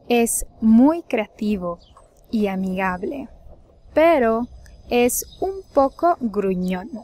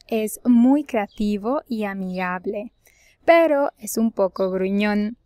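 First: It is spoken at a slower pace. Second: It is spoken at a faster, normal pace.

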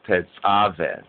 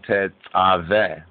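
No difference in how they are said.

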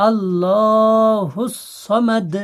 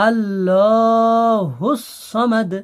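No difference in how they are said.

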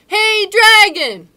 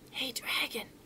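First: It is shouted very loudly. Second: It is whispered very softly.

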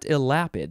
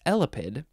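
First: The stress is not on the first syllable. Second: The stress is on the first syllable. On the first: The speaker calls it wrong. "it's not elapid" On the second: The speaker calls it right. "It's elapid, like elephant"

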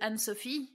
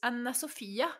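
First: The name is said the French way. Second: The name is said the Norwegian way, ending in a. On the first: This is how the owner says her name. The speaker calls it right. "my name is Anne-Sophie" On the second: This is how others in the country say it. The speaker calls it wrong. "But in Norwegian, it's Anna Sophia"

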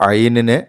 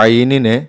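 No difference in how they are said.

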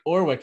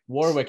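First: The word starts without a W sound. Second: The word starts with a W sound. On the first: "no, not the first W" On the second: "drop the W"

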